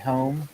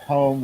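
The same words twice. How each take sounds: First: The O vowel sounds changed. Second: The O vowel sounds standard. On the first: "we say home ... the O is changed" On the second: "instead of home"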